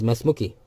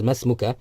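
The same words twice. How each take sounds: First: "Masmuki" ending in a "kee" sound; "Masmuki" with a final i vowel; feminine -ki ending. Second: "Masmuka" ending in an open "ka"; "Masmuka" with a final a vowel; masculine -ka ending. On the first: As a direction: finish "Masmuki" on "kee", for a female listener. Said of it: "Kaf with the kasra". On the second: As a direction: finish "Masmuka" on "kah", for a male listener. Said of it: "whereas here is". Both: Shown as a demonstration.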